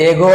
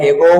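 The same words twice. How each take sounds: First: এগো ending in a pure o; short plain o in এগো; wrong pronunciation. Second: এগো ending in ou; rounded final glide in এগো; correct pronunciation. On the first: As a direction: say এগো with no final glide. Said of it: "এগো হচ্ছে রং". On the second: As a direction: say এগো as "e-gou". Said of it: "right হবে". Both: Shown as a demonstration.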